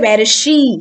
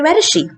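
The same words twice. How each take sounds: First: The word 'she' is said in its full form. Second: The word 'she' is said in a weak form. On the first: The speaker calls it wrong. "So you don't say" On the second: The speaker calls it right.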